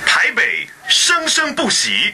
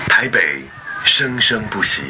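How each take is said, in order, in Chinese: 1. 这句是用有力、有气势的方式说的。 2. 这句是用柔和、感性的方式说的。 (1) "非常有power" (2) "感性的"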